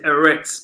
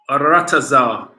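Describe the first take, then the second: First: The word is said with two short syllables. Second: The word is said with four syllables. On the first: This is how others usually say it. The speaker calls it wrong. "They pronounce it Eretz" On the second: This is the speaker's claimed original form. The speaker calls it right. "but it's Aratazar"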